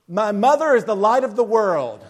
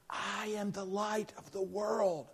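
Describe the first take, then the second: First: Proud, booming recital; clear, loud voice. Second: Hushed, much softer prompt; stage whisper. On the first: Little boy reciting in his Christmas play, very clear and loud. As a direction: belt it out clearly to the whole audience. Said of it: "with a very clear and loud voice". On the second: Mother prompting her son from the front row, stage whisper. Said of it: "the stage whisper". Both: Retold or imitated.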